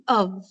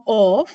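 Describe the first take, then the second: First: Of reduced to "uv"; weak form. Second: Of with a full O vowel; strong form. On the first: Teacher showing students the result, weakened of. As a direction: say of with an uh vowel. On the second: Teacher citing the word before weakening, strong of. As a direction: say of fully, like "off". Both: Shown as a demonstration. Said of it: "that is weakened to of".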